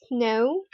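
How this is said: The vowel is said the British way. "is pronounced as o in the British accent"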